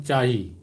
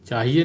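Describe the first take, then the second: First: "चाही" clipped to two syllables, with a fall; the Kurukh form "चाही", said firmly; "चाही" ending on a long i; short Kurukh chahi. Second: "चाहिए" said in full, three syllables, rising at the end; the Hindi form "चाहिए", given as not used; full Hindi chahiye. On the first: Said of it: "Kurukh में चाही". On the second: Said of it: "चाहिए नहीं बोलते हैं". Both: Shown as a demonstration.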